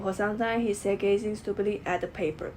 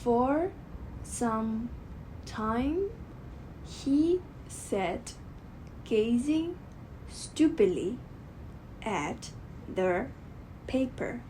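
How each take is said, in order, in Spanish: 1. La oración se dice sin ninguna pausa. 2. La oración tiene pausas cortas entre sus frases. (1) "ellos prefieren a decir una frase como sin pausa, sin terminar" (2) "en realidad habrá pausas muy breves"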